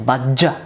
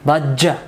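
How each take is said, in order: First: The middle consonant is doubled and hard. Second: The middle consonant is doubled and hard.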